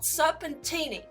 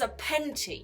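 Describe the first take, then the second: First: The name is said with four syllables. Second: The name is said with three syllables. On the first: The speaker calls it wrong. "I'm pronouncing the name of it wrong. it's not Serpentini" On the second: The speaker calls it right. "it's Serpenti"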